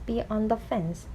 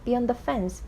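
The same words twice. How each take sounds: First: Slow reading. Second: Said in the usual way. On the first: Shown as a demonstration. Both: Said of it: "원형으로 보면".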